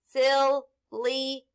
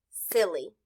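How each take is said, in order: First: Silly drawn out, each sound joined; blended slowly. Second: Said in the usual way. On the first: Shown as a demonstration. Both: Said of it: "S, I, L, sil, L, E".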